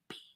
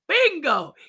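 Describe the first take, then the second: First: It is said weakly and quietly. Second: It is said loudly, with pride.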